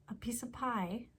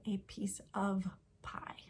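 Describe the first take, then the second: First: "of" shrunk to an unstressed schwa, run onto "piece"; reduced "of". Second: Each word separate, "of" given its full vowel and v; fully pronounced "of". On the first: Teacher showing how talk reduces little words, "of" barely said. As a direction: say "piece of" as one casual run, "piece-uh". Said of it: "Think about how I'm saying". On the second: Teacher showing what she is not saying, "of" pronounced in full. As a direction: carefully sound out "a piece of pie", "of" unreduced. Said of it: "I'm not saying". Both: Shown as a demonstration.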